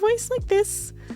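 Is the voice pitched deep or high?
high. The voice is pitched high. It suits a kid or a fairy. "I can do a higher voice like this"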